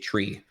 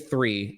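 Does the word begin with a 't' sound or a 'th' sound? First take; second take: t; th. First: The word begins with a hard 't' sound. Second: The word begins with a soft 'th' sound. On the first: The speaker calls it wrong. "I couldn't say the word three" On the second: The speaker calls it right. "I would try to say three"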